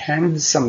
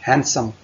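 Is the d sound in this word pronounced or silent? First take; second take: pronounced; silent. First: The d sound is pronounced in the middle. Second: The d sound is left out entirely. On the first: The speaker calls it wrong. "इसे handsome नहीं पढ़ना, D नहीं पढ़ना" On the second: The speaker calls it right. "इसमें D silent है"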